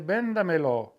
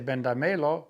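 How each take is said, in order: First: The stress is on the first syllable. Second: The stress is on the third syllable. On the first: The speaker calls it right. "we say bendamelo. ... to keep that stress on, on the E" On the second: The speaker calls it wrong. "We don't say bendamelo"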